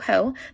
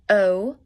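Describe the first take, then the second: First: It starts with an audible h sound. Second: It starts directly with the vowel, no h. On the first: The speaker calls it wrong. "not ho ho" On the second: The speaker calls it right. "but o"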